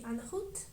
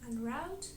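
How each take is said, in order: First: It is pronounced the French way. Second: It is pronounced the English way. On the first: The speaker calls it right. "In French manner it would be en route" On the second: The speaker calls it wrong. "in English you also can hear en route, which is not correct"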